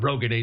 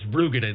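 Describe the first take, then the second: First: The first syllable sounds like 'roe'. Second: The first syllable sounds like 'roo'. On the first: This is how most people say the name. The speaker calls it wrong. "It's not Roegadyn" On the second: This is the proper way to say the name. The speaker calls it right. "it's Rugadyn"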